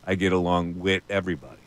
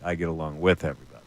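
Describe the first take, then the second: First: The word with ends in a t sound. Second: The word with ends in a th sound. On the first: This is the listener's local Philadelphia way of talking. "You say "wit" all the time" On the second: This is how a careful wordsmith would talk. "He wouldn't be saying "wit.""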